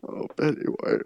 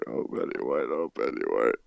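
First: Whispered, hammed-up lament; mock grief whisper. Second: Much lower, softer hammed-up moan; a deep theatrical groan of mourning; mock groaning lament. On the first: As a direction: breathe the name like a sob. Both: Mock grieving, repeated lament.

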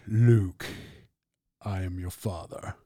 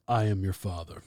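First: Low, soft, deep Vader voice; much lower, breathy Darth Vader. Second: Low, softer Vader without Luke; lightly voiced deep Vader; corrected Vader line. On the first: Retold or imitated. Quoting Star Wars for viewers, a Darth Vader impression. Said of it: "then he's like". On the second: Shown as a demonstration. Giving viewers the real line in a lower Vader voice. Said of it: "He just says".

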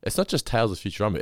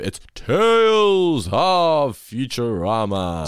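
First: Said in the usual way. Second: Slow, big trailer announcer. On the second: Shown as a demonstration. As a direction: drawl it out like a movie trailer. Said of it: "that's why [name] gets the big bucks".

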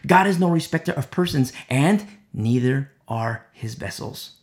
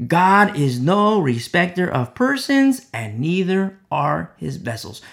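First: Said in the usual way. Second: "God is no respecter of persons" slow and punched; drawn-out, weighty stress on "persons"; slow emphatic repeat. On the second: Real, not acted. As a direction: hammer "respecter of persons" slowly, starting higher. Repeats maxim slowly for emphasis.

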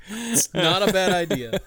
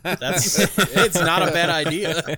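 First: Said in the usual way. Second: Laughing. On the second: Real, not acted. Laughing at segment suggestion.

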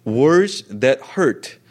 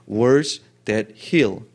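First: Very slow English reading, weight on "Words", falling at the end; slow English title. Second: Very slow English reading, weight on "heal", falling to rest; slow English title. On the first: Pastor quoting the original English book title, very slow and deliberate. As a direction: spell out "Words that hurt" word by word with a fall. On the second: Pastor finishing the English book title, very slow and deliberate. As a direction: let "words that heal" land slowly with a fall on heal. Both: Shown as a demonstration. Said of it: "원래의 제목은 뭐냐면은".

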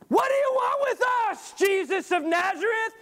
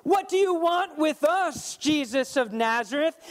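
First: Shouted much higher and louder; screaming. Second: Raised cry, higher than the narration. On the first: Retold or imitated. Man in church screaming at Jesus, shouted high. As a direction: scream it like a man interrupting a preacher. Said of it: "someone gets up screaming". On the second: A narrator's reading. Possessed man in synagogue cries out, raised. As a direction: call out, alarmed. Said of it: "cried out".

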